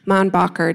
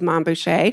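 First: The name is pronounced with English sounds. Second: The name is pronounced with French sounds. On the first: The speaker calls it wrong. "doesn't have the same ring" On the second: The speaker calls it right. "with, of course, the French pronunciation"

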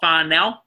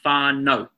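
First: The final vowel sounds like 'ow' in owl. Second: The final vowel sounds like the letter O. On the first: The speaker calls it wrong. "not whānau" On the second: The speaker calls it right. "but whānau"

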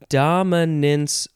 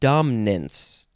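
First: The word is said with three syllables. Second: The word is said with two syllables. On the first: "two syllables or three syllables" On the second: "or just dominance"

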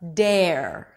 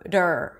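First: A full E vowel comes before the R. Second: The flap goes straight into the R sound. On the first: The speaker calls it wrong. "It's not dare" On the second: The speaker calls it right. "there is no vowel between the flap T and the R"

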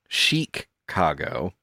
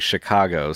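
First: The first syllable sounds like sheek. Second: The first syllable sounds like chick. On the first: "Fashion yes. forward" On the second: "Chicago sounding like chick"

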